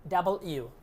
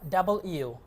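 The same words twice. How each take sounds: First: The letter is said fully as 'double you'. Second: The same.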